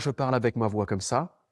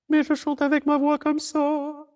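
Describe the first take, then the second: First: It is said in a normal, lower speaking voice. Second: It is said in a high countertenor voice.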